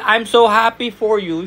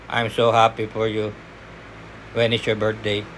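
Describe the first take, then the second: First: "I'm so happy for you" sung out higher with real gladness; bright, happy read. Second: "I'm so happy for you. When is your birthday?" dropped much lower and softer, flat and dull; flat, wrong tone. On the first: Trainer showing applicants the right cheerful tone. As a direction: sound truly pleased for the caller. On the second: Trainer showing the wrong flat delivery on a call test. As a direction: mumble it low with no joy. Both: Shown as a demonstration. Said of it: "hindi mo naman pwede sabihin".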